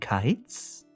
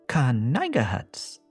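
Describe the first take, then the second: First: The silent k, g and h are not pronounced. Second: The silent k, g and h are all pronounced. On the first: "Do you mean kites?" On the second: "Are you pronouncing the silent letters?"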